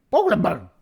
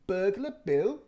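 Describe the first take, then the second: First: Put-on high, loud baby voice. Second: Said in the usual way. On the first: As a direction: squeal the words like a toddler learning them. Baby repeats words.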